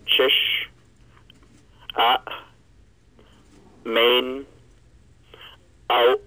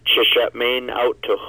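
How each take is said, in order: First: It is said broken into separate parts. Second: It is said smoothly without breaks.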